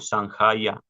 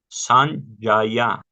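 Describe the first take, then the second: First: The j is pronounced as a throaty h. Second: The j is pronounced like a y sound. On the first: The speaker calls it wrong. "no Sanjaya" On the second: The speaker calls it right. "La J suena como la Y"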